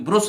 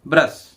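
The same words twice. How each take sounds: First: "ब्रुश" with a rounded u as in put; wrong u vowel. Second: "ब्रश" with a short open uh, standing alone; correct uh vowel. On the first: Teacher showing what is not said, "ब्रुश" with rounded u. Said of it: "क्योंकि ब्रुश नहीं बोलते हैं". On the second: Teacher modelling the right word, "ब्रश" with short uh. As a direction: say "ब्रश" to rhyme with rush. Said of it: "ये ब्रश बोलते हैं इसको". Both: Shown as a demonstration.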